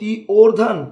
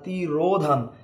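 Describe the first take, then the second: First: The o vowel comes before the r. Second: The o vowel comes after the r. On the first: The speaker calls it wrong. "তুমি কি এভাবে বলো তি ওর ধান" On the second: The speaker calls it right. "না তি রো ধান? তিরোধান বলছো।"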